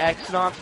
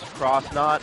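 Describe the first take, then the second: First: The first part is said as the letter X. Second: The first part is said as the word cross. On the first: This is the speaker's own habitual way. "I say X-Nauts" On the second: This is the supposedly official way. "I've heard it's supposed to be pronounced Cross-Knot"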